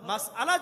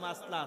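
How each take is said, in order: First: The word is said as three syllables with a break. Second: The word is squeezed into two syllables. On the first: The speaker calls it right. "শুদ্ধ করে" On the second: The speaker calls it wrong. "শুদ্ধ করে বলতে পারে না, বলে মাসলা আছে"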